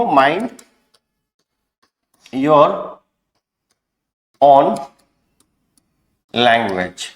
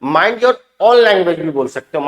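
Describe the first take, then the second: First: Mind, your, own, language each hit with a pause between; spaced out for extra force. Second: Said in the usual way. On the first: Shown as a demonstration. Teacher showing the class how to say mind your own language with more force, word by word. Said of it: "थोड़ा और जोर देना है तो आप ऐसा भी बोल सकते हो". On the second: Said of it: "थोड़ा और जोर देना है तो".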